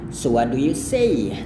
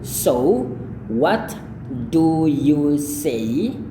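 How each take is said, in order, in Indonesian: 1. Kata-katanya menyambung dan t dihilangkan. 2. Setiap kata diucapkan terpisah, dengan t diucapkan. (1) "T ini tidak dilafalkan" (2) "tidak mungkin orang ngomong kayak gitu. Itu terlalu terlalu pelan"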